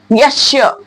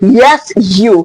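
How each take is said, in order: First: The s and y merge into sh. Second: The s and y are said separately. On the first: "Yes you becomes the yes sure" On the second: "What do we say?"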